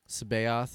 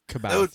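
First: The name begins with a soft S sound. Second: The name begins with a hard K sound.

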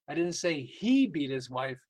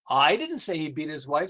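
First: The stress is on "beat". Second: The stress is on "I".

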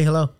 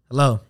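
First: It is said with a smile, cheerfully. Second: It is said flatly, sounding mad.

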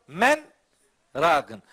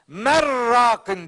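First: The words are split by a short silent break. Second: The n blends into the r without a break. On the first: "Sekte var, sekte" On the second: "Tecvid kurallarına göre ... Mer rakin diye okunması lazım"

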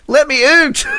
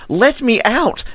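First: The word out sounds like oot. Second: The word out has a plain, unaccented vowel. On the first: "Canadians have a very distinctive way of pronouncing the word out" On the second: "There's absolutely no evidence of accent at all!"

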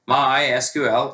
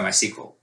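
First: SQL is spelled out as separate letters. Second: SQL is pronounced as a single word. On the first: "the traditional pronunciation preferred by the founder is MySQL, like YMCA" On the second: "in America, a lot of folks go by MySQL"

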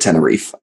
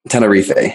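First: The name is pronounced the English way. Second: The name is pronounced the Spanish way. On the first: This is how most English speakers say it. "Most English speakers like call it Tenerife" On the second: This is the technically correct local name.

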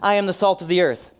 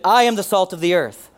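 First: It is said plainly, without conviction. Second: It is said with strong conviction.

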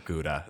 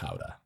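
First: It is said the common English way. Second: It is said the Dutch way. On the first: The speaker calls it wrong. "It's like when people order Gouda" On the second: The speaker calls it right. "It's pronounced Gouda"

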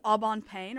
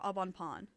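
First: The last word rhymes with 'rain'. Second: The last word sounds like 'pon'. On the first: "do you think it's Aubon Payne or Aubon Pon?" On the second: "it's supposed to be pronounced like Pon"

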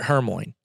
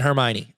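First: The name is said with a misread pronunciation. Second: The name is said with its standard pronunciation. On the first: The speaker calls it wrong. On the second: The speaker calls it right.

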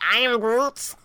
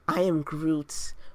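First: It is said in an angry tone. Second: It is said in a calm, serene tone.

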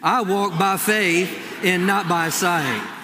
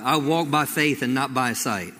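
First: The line is said with bold, forceful attitude. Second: The line is said in a plain, neutral way.

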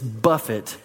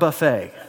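First: The word ends in an 'it' sound. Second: The word ends in an 'ay' sound. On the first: It means to handle roughly. The speaker calls it right. "the proper pronunciation of that third word is buffet" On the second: It means a self-serve meal. The speaker calls it wrong. "not buffet"

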